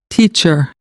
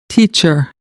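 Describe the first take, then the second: Both takes have the same delivery.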